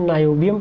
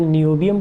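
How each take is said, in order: First: The first syllable sounds like 'nye'. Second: The first syllable sounds like 'nee'. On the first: "कई लोग इसको नायोबियम पढ़ते हैं" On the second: "कई लोग नियोबियम पढ़ते हैं"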